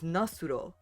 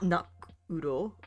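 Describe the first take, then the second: First: An s sound links into the ending. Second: No s sound links into the ending. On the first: The speaker calls it right. "it is nasuro because it's not followed by a consonant" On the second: The speaker calls it wrong. "it's not nakuro"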